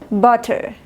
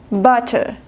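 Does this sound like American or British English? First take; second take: British; British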